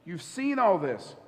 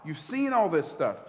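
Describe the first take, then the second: First: Slow, leaning on all in you've seen all this; slowed repeat. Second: Said in the usual way. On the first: Retold or imitated. Jesus chiding the disciples, slowed and weighted. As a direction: draw it out for weight. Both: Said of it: "Jesus is like".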